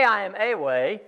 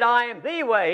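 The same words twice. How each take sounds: First: A said "ay" as the rejected word; contrasting A. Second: THE said "thee", higher and weighted; stress on THE. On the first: Preacher showing what Jesus didn't say, stressed A. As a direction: set A apart as "ay", softer than a claim. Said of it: "He didn't say". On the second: Preacher stressing the one way to brethren, emphatic THE. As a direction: hit THE as a long "thee". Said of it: "A definite article is there before each one". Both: Shown as a demonstration.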